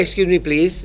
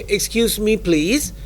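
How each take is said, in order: First: The voice falls at the end. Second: The voice rises at the end. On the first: The speaker calls it wrong. "ไม่ใช่เสียงลง" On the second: The speaker calls it right. "your voice should always be up"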